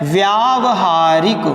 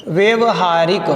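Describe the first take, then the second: First: व्यावहारिक said slowly as /ʋjaʋəharik/, with a clear long व्या; correct form, slow. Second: व्यवहारिक said as /ʋeʋɦaɾik/, with a short वे and no या sound; common wrong form. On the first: Teacher to students, giving the correct word slowly and clearly. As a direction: draw out व्यावहारिक so the व्या stands out. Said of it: "शुद्ध क्या होता है". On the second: Teacher to students, showing the common mistake, the wrong word said plainly. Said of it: "प्रायः हम यही लिख देते हैं व्यवहारिक". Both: Shown as a demonstration.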